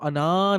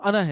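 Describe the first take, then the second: First: The vowel is stretched out long. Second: The vowel is kept short, not stretched. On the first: The speaker calls it wrong. "वो अना नहीं है" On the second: The speaker calls it right. "वो खिंचता ही नहीं है"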